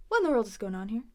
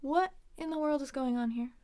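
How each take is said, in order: First: Quick, connected. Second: Measured, with a pause after "what". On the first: Teacher models the example question, quick and connected. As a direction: run the question together. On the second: Teacher models an example question, deliberate with a pause. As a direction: set "what" apart, higher, then go on. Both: Shown as a demonstration.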